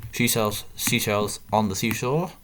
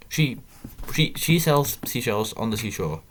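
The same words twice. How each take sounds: First: Slow, careful first try at the tongue twister. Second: Quicker rushed go at the tongue twister, stumbling at the start; faster tongue twister. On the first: Player trying a tongue twister on stream, slow and careful. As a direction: feel your way through each word slowly. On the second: Player retrying the tongue twister faster for viewers, rushed. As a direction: push the words out faster, tripping on she. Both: Shown as a demonstration. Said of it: "Gotta say that a bit faster".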